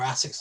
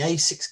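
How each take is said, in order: First: The name is said the company's own way. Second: The name is said the common English way.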